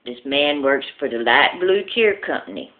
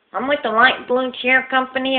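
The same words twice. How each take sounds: First: Said in the usual way. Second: Lisping salesman. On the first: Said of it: "He kinda talks like this". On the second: Acted. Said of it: "he talks with a lisp".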